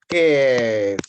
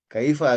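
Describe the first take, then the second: First: The word is shortened to one syllable. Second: The word is said in full, two syllables. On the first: This is how local people say it. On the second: This is the standard form.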